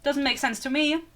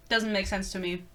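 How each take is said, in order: First: Said in the usual way. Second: Low, soft aside to oneself; quiet repeat. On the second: Real, not acted. Reviewer puzzled by New York rent, quiet low repeat. Repeats remark lower and softer.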